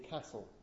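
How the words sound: It is said with a northern English vowel. "Northerners also say castle... they say castle"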